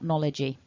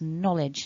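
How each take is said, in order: First: The word ends with an added E vowel. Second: The word ends on the J sound. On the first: The speaker calls it wrong. "not knowledgy" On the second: The speaker calls it right. "It's knowledge"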